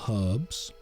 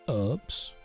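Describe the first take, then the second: First: It is said in a British accent. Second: It is said in an American accent.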